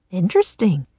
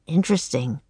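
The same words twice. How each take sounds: First: Cheerfully. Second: Quieter, uneasy echo. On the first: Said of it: "he said cheerfully". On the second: Jack echoing Teddy, uneasy and quieter. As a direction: say it nervously, trying to smile. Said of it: "He shivered". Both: A narrator's reading.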